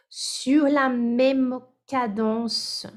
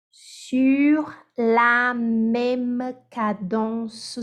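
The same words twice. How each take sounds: First: Said in the usual way. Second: Slow, syllable by syllable, each beat even; teacher spells out "sur la même cadence" in even beats; syllabic. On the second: Shown as a demonstration. Teacher modelling an even syllabic rhythm.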